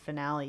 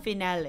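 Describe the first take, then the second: First: The word has an American English pronunciation. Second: The word has a French pronunciation. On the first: "we pronounce it finale because we're fucking American" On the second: "I think it's finale in French"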